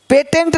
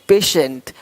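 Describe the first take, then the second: First: The middle consonant is a t sound. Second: The middle consonant is an sh sound. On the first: The speaker calls it wrong. "पेटेंट नहीं" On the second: The speaker calls it right. "तो श"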